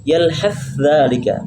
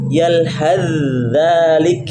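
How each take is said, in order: First: The th sound is pronounced separately before dh. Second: The th sound is merged fully into dh. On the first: The speaker calls it wrong. "tidak boleh lagi dibaca" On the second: The speaker calls it right.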